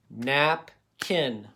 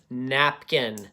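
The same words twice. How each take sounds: First: NAP, pause, KIN, each part on its own; split into syllables. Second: Said in the usual way. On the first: Shown as a demonstration. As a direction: break napkin into "nap" and "kin". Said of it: "I'm doing each part".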